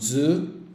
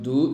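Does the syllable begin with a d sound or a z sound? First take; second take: z sound; d sound. First: The syllable begins with a z sound. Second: The syllable begins with a plain d sound. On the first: The speaker calls it right. "sino zu" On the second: The speaker calls it wrong. "esto también no es du"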